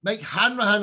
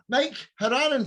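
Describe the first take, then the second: First: Hanrahan said as HAN-ra-han with the r back in; corrected surname. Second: Haranan said as HAR-a-nan, no r after the Han; host stumbles, saying Haranan with the r dropped; mispronounced surname. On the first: Host fixing the guest's name after his correction, Hanrahan. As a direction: carefully repeat Hanrahan the way the guest gave it. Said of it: "I'm so sorry, I'm really bad". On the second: Host introducing the Dublin guest, wrong name Haranan. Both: Real, not acted.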